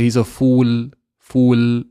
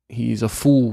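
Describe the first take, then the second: First: FOOL finished on a long, clear l; fully pronounced l. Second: FOOL ending like "foo-w", tongue down; l not pronounced. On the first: Teacher showing what Brits don't say, exaggerated final l. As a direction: land and hold the l in FOOL. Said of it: "We don't say". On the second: Teacher showing British accent, unpronounced final l. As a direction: let the l of FOOL melt away. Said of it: "We don't actually pronounce the lam". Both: Shown as a demonstration.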